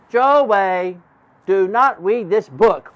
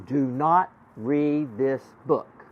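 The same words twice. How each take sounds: First: Louder, slow, wide-eyed reading; alarmed repeat. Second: Slow, word by word; slow reading-out. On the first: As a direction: repeat the warning louder and slowly. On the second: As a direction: spell out the warning slowly, word by word. Slowly reading out magic words. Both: Acted.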